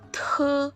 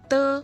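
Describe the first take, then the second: First: The consonant is released with a puff of air. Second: The consonant is released without a puff of air. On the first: "Ada hanya lagi kan, ada hembusan udaranya" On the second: "D dibaca kayak T"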